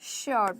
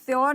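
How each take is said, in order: First: The word begins with an sh sound. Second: The word begins with a plain s sound. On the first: The speaker calls it right. "श की sound आएगी तो वो correct होगा" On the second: The speaker calls it wrong. "श्योर नहीं बोलेंगे"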